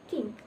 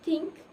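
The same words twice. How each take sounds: First: The word begins with a t sound. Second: The word begins with a th sound. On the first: "may sound like" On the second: "and think"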